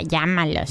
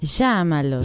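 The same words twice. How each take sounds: First: The 'll' is said with a y sound. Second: The 'll' is said with an Argentine sh sound.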